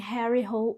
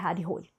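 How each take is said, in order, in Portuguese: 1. O nome é pronunciado do jeito inglês. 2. O nome é pronunciado do jeito norueguês. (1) "isso aqui é muito inglês" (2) "descobri que a pronúncia é"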